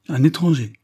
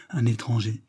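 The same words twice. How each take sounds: First: High, loud exclamation of protest; exclaimed protest. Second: Said in the usual way. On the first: A narrator's reading. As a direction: throw the word back, louder and higher. (exclamation, voix haute et forte) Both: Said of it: "s'écria monsieur Lidney".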